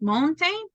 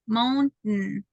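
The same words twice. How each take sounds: First: The T is fully released before the n. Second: The T is a glottal stop before the n. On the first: The speaker calls it wrong. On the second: The speaker calls it right.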